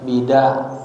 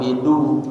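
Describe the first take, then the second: First: The vowel after the d is a. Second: The vowel after the d is u. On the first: "dan difathahkan, boleh juga" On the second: "dalnya dibaca dhammah"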